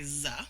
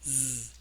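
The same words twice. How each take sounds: First: The z sound ends with an added uh vowel. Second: The z sound is buzzed alone without a vowel. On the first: The speaker calls it wrong. "I don't say z" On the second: The speaker calls it right. "it's z. We try to avoid using an uh"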